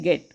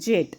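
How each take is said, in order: First: The word begins with a hard g sound. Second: The word begins with a j sound. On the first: The speaker calls it right. "गेट म्हणतो आपण याला" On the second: The speaker calls it wrong. "जेट असा नसतो करायचा"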